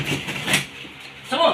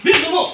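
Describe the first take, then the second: First: Slow, breathless whispered order; whispered urging. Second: High, loud sudden command; shouted order. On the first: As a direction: hiss it slowly under the breath. Healer urging spirit, whispered. (pabulong na utos) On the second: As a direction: snap it out loud. Healer urging spirit, shouted. (malakas na sigaw) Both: Real, not acted.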